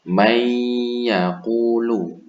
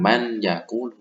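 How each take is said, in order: First: The n sound merges into the following y. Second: The n sound is kept before the y. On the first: The speaker calls it right. "dibaca melebur ke huruf idgham gunah" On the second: The speaker calls it wrong. "bukan man yaqulu"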